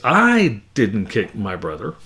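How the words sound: The stress falls on the word I. Someone else kicked the brother. "If I put the emphasis on the I"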